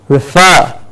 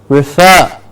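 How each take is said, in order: No difference in how they are said.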